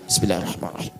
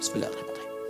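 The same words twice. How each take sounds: First: It is said aloud so others hear. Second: It is said very quietly, almost silently.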